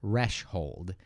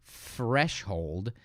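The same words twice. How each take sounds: First: "threshold" begun with TH, tongue at the teeth, slowly split; TH sound. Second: "threshold" said as "freshhold", starting with F; F sound. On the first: Teacher showing the difference from F, "threshold" with a drawn-out TH. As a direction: stretch the TH that opens "threshold", tongue forward. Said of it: "we always say th with our tongue". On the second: Teacher contrasting the two sounds, "threshold" begun with F. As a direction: swap the TH of "threshold" for a drawn-out F. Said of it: "which is with an F". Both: Shown as a demonstration.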